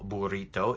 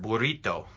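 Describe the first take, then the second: First: It is said with an English pronunciation. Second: It is said with a Spanish pronunciation. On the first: "the English word burrito" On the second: "in Spanish, we would have the word burrito"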